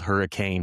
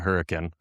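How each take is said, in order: First: It is said like the ordinary word hurricane. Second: It is said with the local town pronunciation. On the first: This is how the name looks written. "it's spelled hurricane" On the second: This is how people there actually say the name. "we pronounce it hurricane"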